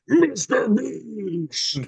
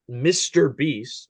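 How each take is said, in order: First: It is said in an exaggerated meme voice. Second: It is said in a plain, ordinary voice.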